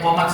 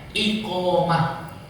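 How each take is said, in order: First: The word starts with a k-sound, no initial i. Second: The word starts with an i-sound before q. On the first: The speaker calls it wrong. "Ayo komat salah ya Pak" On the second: The speaker calls it right. "Yang betul iqom ada i-nya"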